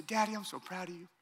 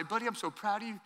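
First: Lightly voiced toddler copying dad, much softer; a hint of a three-year-old parroting back "Daddy, I'm so proud of you."; little son echoing. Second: Much softer, loving father's blessing; tender dad. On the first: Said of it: "He'll say". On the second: Retold or imitated. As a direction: say it softly like holding your son's face. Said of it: "I'll say".

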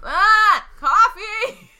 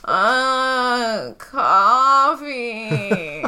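First: High, louder whining plea; high whiny wail for coffee. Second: A touch louder, insistent; mildly raised demand. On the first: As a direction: whine for it like a needy patient. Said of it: "So whiny". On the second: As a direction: repeat it a bit louder until someone comes. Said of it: "she just gets a little louder". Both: Acted.

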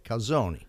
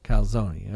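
First: Calzone in an Italian accent, with an ee sound tacked on the end; Italian accent, ending calzone on a lilting extra vowel like a question. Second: Calzone copied with a trailing ee like kalzonee; co-host trying the Italian ending on calzone; attempted Italian calzone. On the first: Shown as a demonstration. Italian accent demo for the co-host, ending calzone on a lilting vowel. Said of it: "gotta have a question mark at the end of it". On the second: Co-host imitating the Italian ending on calzone. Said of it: "Uh, uh".

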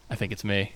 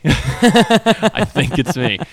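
First: Soft, sheepish realisation through a laugh; laughing at his own guilt. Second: Slow, louder, laughing confession; laughing as the realisation sinks in; drawn-out laughing admission. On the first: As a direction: admit it quietly while laughing. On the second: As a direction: stretch it out while cracking up. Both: Retold or imitated.

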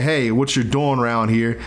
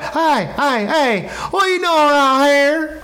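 First: Said in the usual way. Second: High, loud Southern holler, words run together; slurred southern accent. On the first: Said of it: "instead of saying". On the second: Retold or imitated. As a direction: slide all the words together in a thick Southern twang. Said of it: "slide all their words together".

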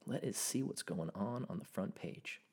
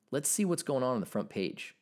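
First: Mock low murmur. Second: Said in the usual way. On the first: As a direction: murmur it low like a playful aside. Repeats line in put-on voice.

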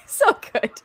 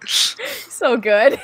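First: High laughing squeal. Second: Laughing. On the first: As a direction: squeal it through a giggle. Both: Real, not acted. Laughing after joke.

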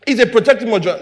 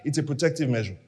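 First: Said in the usual way. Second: Dropped low and soft; soft aside. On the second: Shown as a demonstration. Preacher first says it softly to himself. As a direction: say it almost under the breath.

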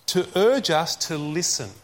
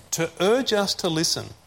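Both takes have the same delivery.

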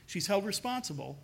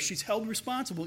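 First: "held" punched as the key word, then a fall; stress on held. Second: "responsible" gets the main weight, falling at the end; stress on responsible. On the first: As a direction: hit "held" hard, keep "responsible" light. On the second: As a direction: lean on "responsible", let it drop. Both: Shown as a demonstration.

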